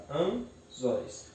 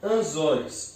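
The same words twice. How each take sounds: First: "anzóis" slowly split into an, zóis; syllable by syllable. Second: Said in the usual way. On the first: Shown as a demonstration. Teacher separates the word, "anzóis" syllable by syllable. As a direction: pause between the syllables of "anzóis". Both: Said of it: "eu separo".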